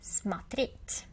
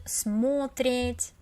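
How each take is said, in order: First: "Смотреть" as sma-TRET, stress on second syllable. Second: "смотреть" as smo-TRET with a full O; non-native O. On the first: Teacher illustrating the rule, "Смотреть" said sma-TRET. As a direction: reduce the O in "Смотреть" to a short A. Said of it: "So O becomes R". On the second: Teacher showing the non-native reading, "смотреть" said smo-TRET. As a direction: hold a round O in the first syllable of "смотреть". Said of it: "or the previous word". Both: Shown as a demonstration.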